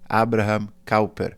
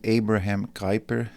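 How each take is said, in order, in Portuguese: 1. O nome é dito com pronúncia holandesa. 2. O nome é dito com pronúncia inglesa. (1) "a pronúncia correta" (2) "ou em inglês"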